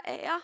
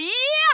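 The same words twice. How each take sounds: First: "Ja." said small, thin and timid. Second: "Ja!" shouted high and loud; loud bold yes. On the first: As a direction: squeak a feeble "Ja.". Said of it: "en liten spinkel stemme som sa". ("Ja." med liten, spinkel stemme) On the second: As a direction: boom out "Ja!" with confidence. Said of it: "Jeg sa ikke sånn". ("Ja!" ropt høyt og selvsikkert) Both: Shown as a demonstration.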